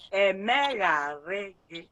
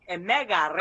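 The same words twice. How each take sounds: First: "Emegharị gị" drawn out slowly, each syllable clear; slow model pronunciation. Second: Said in the usual way. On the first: Shown as a demonstration. Teacher modelling "Emegharị" slowly for a pupil who misspelled it. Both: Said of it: "Listen to it again".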